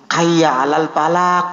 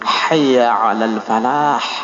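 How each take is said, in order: First: The last word ends in a k-like sound. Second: The last word ends in a breathy h sound. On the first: The speaker calls it wrong. "Salah itu Pak" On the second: The speaker calls it right. "Yang benar begini"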